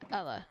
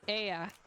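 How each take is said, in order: First: The middle consonant is an L sound. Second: The middle consonant is a Y sound. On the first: The speaker calls it wrong. "wait, no, that's not right" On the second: The speaker calls it right. "the A is like the Y sound"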